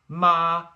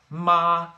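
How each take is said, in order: The two takes are said the same way.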